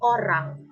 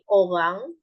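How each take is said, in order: First: The R is strongly trilled. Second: The R is soft, almost silent. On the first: This is the Indonesian way of saying it. "pronounced with a trilled R" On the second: This is the Malay way of saying it. "often pronounced with a softer or even silent R"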